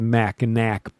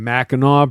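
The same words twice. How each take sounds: First: The name is given a non-local pronunciation. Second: The name is given the local Michigan pronunciation. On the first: The speaker calls it wrong. "I shouldn't say it that way" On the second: The speaker calls it right. "I'm a Michigander. That's how we say it"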